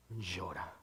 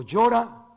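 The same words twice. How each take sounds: First: Softer, hushed word; hushed weeping word. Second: Louder, pressing on llora; rising preaching emphasis. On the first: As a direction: let the word fall away quietly. Christ weeps, said softly. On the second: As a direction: push llora forward strongly. Repeated word said louder. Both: Real, not acted.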